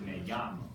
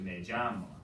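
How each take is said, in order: First: The 'll' sounds like a soft y. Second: The 'll' sounds like a j. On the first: "like when we're in the classroom, we pronounce it" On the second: "a little more J in there"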